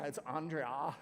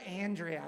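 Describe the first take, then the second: First: Andrea said as On-dree-ah, stressed on dree; right pronunciation. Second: Andrea said as Ann-dray-ah, flat A up front; wrong pronunciation. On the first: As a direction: Andrea with an open first vowel and a long ee. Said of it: "that's how she pronounced it". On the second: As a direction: Andrea with a short a and ay in the middle. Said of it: "it's not Andrea". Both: Shown as a demonstration.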